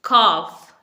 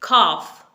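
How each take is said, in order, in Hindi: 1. यह शब्द 'off' से तुक मिलाता है। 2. यह शब्द 'off' से तुक मिलाता है।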